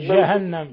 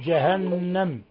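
First: The first consonant is soft and weakly articulated. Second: The first consonant is firm and fully articulated. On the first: The speaker calls it wrong. "لا تقل جهنم" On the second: The speaker calls it right. "قل جهنم. الجيم عطشها"

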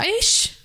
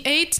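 First: The word ends with an sh-like sound. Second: The word ends with a clear t sound. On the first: "а «ish»" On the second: "Или не «eight»"

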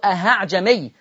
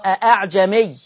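First: The second hamza is pronounced with an h sound. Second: Both hamzas are pronounced as full glottal stops. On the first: "بسمع كتير يقولوا أأعجمي، من أين الهاء؟" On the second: "أصلها أأعجمي"

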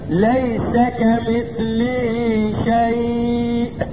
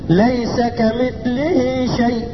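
First: The last word's vowel is held long. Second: The last word's vowel is kept short. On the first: The reciter stops after this word. "وذلك في حال الوقف فقط" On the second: The reciter runs on into the next words. "اسمع مني كمان"

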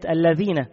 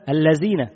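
First: The consonant is said as a dh sound. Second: The consonant is said as a z sound. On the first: The speaker calls it right. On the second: The speaker calls it wrong.

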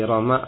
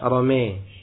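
First: The final vowel is an open a. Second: The final vowel leans toward e.

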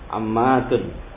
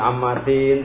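First: The word ends with the vowel u plus n. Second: The word ends with the vowel i plus n. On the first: The word stands in the nominative case. The speaker calls it right. "Ini domah marfu gitu ya" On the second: The word stands in the genitive case. The speaker calls it wrong. "Tidak dibaca dengan ammatin"

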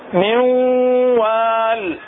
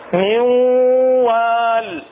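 First: The n merges into a doubled nasalized w. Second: The n merges into a doubled nasalized w.

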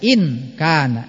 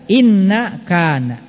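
First: The n sound is short with no following vowel. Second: The n sound is doubled and followed by a vowel. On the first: The speaker calls it right. "Tapi dibaca in kana" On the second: The speaker calls it wrong. "jangan dibaca inna kana"

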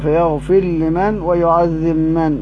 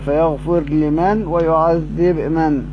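First: The r and b merge into the following sounds. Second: The r and b are pronounced clearly, not merged. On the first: "مع الإدغام فيهما" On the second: "مع إظهارهما"

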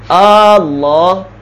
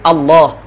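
First: The first vowel is drawn out long. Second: The first vowel is said short. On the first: It turns the word into a question. The speaker calls it wrong. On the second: It is a plain statement of the divine name. The speaker calls it right.

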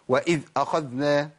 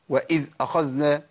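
First: The dh sound is cut off abruptly. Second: The same.

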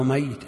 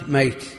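First: The middle y sound is long and doubled. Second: The middle y sound is short and single. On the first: Someone who will die. "الميت بالتشديد الذي سيموت" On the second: Someone who has already died. "الذي مات ميت"

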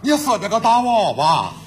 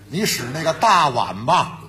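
First: It is said in a heavily nasal Shanxi accent. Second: It is said in plain standard Mandarin.

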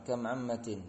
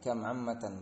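First: The second word ends with an 'in' sound. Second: The second word ends with an 'an' sound. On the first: It exclaims that there are very many aunts. "maka dibaca dengan jar" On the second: It asks how many aunts there are. "maka dinasobkan setelah kamnya"

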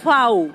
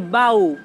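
First: The word begins with an f sound. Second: The word begins with a b sound. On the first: This is the form used around Temuco. "los huenteche, que son de más alrededor de Temuco hacia allá, tenemos que están diciendo fau" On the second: This is the form used around Malleco. "Todo ese sector están los nalche, y aquí se habla de bau"

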